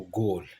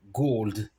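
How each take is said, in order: First: GOLD with no D at the end; simply GOL for GOLD, long O; Yai pronunciation. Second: GOLD with the D heard at the end; English GOLD, closing L-D; final D sounded. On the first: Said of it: "Les gens de Yai, ils disent simplement". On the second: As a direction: finish GOLD on a clear D. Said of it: "le son de à la fin". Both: Shown as a demonstration.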